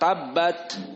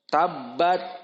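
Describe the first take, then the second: First: The final t is released with audible breath. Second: The final t is held with no breath. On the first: The speaker calls it right. "yang benar tabbat, keluar" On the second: The speaker calls it wrong. "the wrong example, tabbat, dimakan udaranya"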